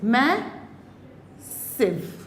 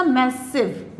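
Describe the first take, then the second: First: massive slowly split, मै, long pause, सिव; syllable by syllable. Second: Said in the usual way. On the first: Shown as a demonstration. Teacher showing its vowel sounds, massive split into मै and सिव. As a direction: draw massive apart into two syllables. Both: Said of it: "आई की आवाज़ आ रही है".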